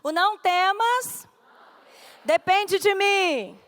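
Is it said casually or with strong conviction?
strong conviction. It is said with strong conviction.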